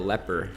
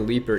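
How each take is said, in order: First: The first vowel is short, like 'step'. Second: The first vowel is long, like 'leap'. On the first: The speaker calls it right. "is a leper" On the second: The speaker calls it wrong. "the leaper that I've been calling the leaper"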